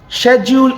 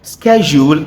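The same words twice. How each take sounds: First: The word is said with British pronunciation. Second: The word is said with American pronunciation. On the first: "Schedule is a British pronunciation" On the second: "Schedule is the American pronunciation"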